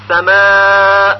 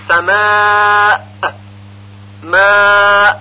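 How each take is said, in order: First: سماء with long aa cut clean; correct pausal hamza. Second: سماء with long aa and a released bounce; wrong echoed hamza. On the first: Teacher giving the example word, unreleased final hamza in سماء. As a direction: hold the alif and stop without any echo. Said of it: "پس اگر بگوییم سماء". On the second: Teacher showing the mistake, echoing final hamza in سماء. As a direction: hold the alif, then pop an extra short 'a'. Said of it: "غلط هست". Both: Shown as a demonstration.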